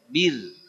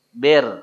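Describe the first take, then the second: First: The vowel is a clear 'i' with spread lips. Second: The vowel sounds like an open 'e'. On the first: The speaker calls it right. "Jadi betul-betul I, nyengir" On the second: The speaker calls it wrong. "nggak boleh"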